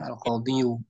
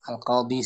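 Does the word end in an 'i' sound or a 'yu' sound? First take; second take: yu; i. First: The word ends with an added 'yu' sound. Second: The word ends in a plain 'i' sound. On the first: The speaker calls it wrong. "bukan Al-Qadiyu" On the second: The speaker calls it right. "Al-Qadi saja"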